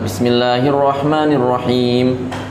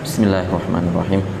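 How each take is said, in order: First: It is recited at full, audible volume. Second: It is recited softly, at low volume.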